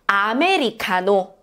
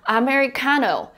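First: The word is said with Korean pronunciation. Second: The word is said with English pronunciation. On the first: "let's practice one time together in Korean pronunciation" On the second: "Korean will understand Americano as well"

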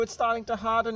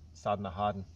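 First: It is said in a high-pitched put-on voice. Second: It is said in a normal speaking voice.

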